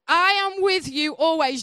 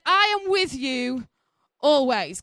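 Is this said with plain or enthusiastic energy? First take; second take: enthusiastic; plain. First: It is said with more lively enthusiasm. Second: It is said with plain, ordinary energy.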